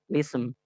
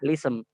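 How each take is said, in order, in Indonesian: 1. Kata ini langsung diawali dengan bunyi L. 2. Kata ini langsung diawali dengan bunyi L.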